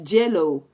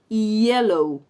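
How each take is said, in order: First: It starts with a harder, Spanish-like consonant. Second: It starts with a soft English glide. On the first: The speaker calls it wrong. "el sonido que hacemos para la L doble" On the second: The speaker calls it right. "es un sonido diferente, que sí es un fonema en inglés"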